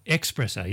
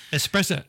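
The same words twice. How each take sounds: First: Espresso with a k, ex-PRESS-o; common mispronunciation. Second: Espresso with an s, ess-PRESS-o; correct pronunciation. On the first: Host showing the mistake, Espresso starting with ex. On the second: Host raising another word, Espresso with plain s. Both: Shown as a demonstration. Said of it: "A lot of people say espresso".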